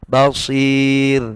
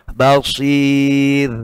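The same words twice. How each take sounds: The two takes are said the same way.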